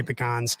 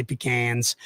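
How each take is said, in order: First: "pecans" as pih-KAHNS, open AH; northern pronunciation. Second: "pecans" as pih-KANS, flat A as in "can"; southern pronunciation. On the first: Host showing what he says up north, northern "pecans" with AH. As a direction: say "pecans" the northern way, rhyming with "cons". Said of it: "when I'm up north, I have to say". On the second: Host showing what he says down south, southern "pecans" with short A. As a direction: say "pecans" the southern way, rhyming with "cans". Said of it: "When I'm down south, I have to say". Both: Shown as a demonstration.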